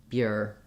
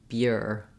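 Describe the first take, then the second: Both takes have the same delivery.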